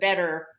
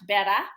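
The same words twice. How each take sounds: First: The final R is clearly pronounced. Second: The final R is dropped, ending in an ah. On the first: "instead of" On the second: "the R's become A's, like"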